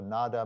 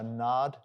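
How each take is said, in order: First: The word ends with a vowel after d. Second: The word ends on the consonant d. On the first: "or Nada" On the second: "it can be just pronounced two ways, depending on which part of India you're from"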